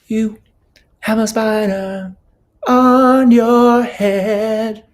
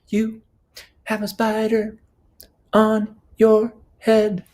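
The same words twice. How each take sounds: First: It moves across several different pitches. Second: It is said on one repeated pitch.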